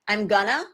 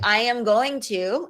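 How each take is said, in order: First: The words blend together into a shortened form. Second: Each word is said separately and in full.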